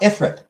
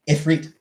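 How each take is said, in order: First: The name is said the way it looks. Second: The name is said with its Arabic pronunciation. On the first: The speaker calls it wrong. "It's not Ifrit. ... everybody pronounces it Ifrit because ... that's how it looks" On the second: The speaker calls it right. "It is Ifrit. ... it is Arabic"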